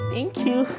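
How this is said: It is said in a flirty tone. The judges are attractive. "flirty tayo"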